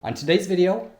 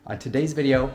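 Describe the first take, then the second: First: It is said with high, intense energy. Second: It is said with calmer, lower energy.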